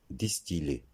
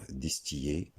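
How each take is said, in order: First: Distiller with a true L, dis-ti-lé; correct pronunciation. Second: Distiller said with a Y glide, dis-ti-yé; wrong pronunciation. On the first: Teacher correcting learners, distiller with a clear L. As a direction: sound the L in distiller. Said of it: "mais distiller". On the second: Teacher showing the mistake, distiller like griller. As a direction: make the double L of distiller a Y sound. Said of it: "il ne faut pas dire distiller". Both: Shown as a demonstration.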